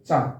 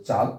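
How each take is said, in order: First: চাঁদ with the vowel sent through mouth and nose; nasal vowel. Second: Said in the usual way. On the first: Shown as a demonstration. Teacher contrasts moon with the country name, চাঁদ said with a nasal vowel. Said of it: "তাহলে তার উচ্চারণ হবে চাঁদ". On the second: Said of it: "যদি বলি চাঁদ, তাহলে একটা দেশের নাম".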